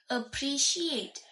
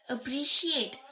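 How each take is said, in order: First: The stress is on the last syllable. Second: The stress is on the last syllable.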